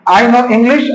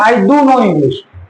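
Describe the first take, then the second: First: Said in the usual way. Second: "do" stressed, the whole line slow; emphatic stress. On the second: Shown as a demonstration. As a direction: put weight on "do". ("do" पर ज़ोर, धीमी रफ़्तार में) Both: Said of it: "किसमें लग रहा है कि ज्यादा जोर देके बोला जा रहा है?".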